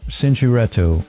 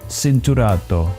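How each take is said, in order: First: It is pronounced in an English way. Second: It is pronounced in an Italian way. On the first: The speaker calls it wrong. "I always struggle to pronounce this" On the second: The speaker calls it right. "Pirelli is Italian, so it basically should be Cinturato"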